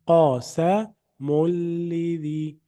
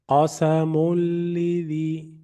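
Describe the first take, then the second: First: The n merges into a doubled l sound. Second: The n merges into a doubled l sound.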